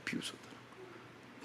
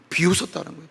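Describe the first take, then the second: First: Whispered, barely there; sneering whisper. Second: Said in the usual way. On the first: Shown as a demonstration. Preacher echoes the crowd's mockery, in a sneering whisper. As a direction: breathe it out like a sneer.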